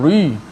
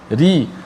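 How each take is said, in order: First: The r is heavy and thick. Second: The r is light and thin. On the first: The speaker calls it wrong. "jangan ri" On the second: The speaker calls it right. "Ra baris bawah dibaca nipislah"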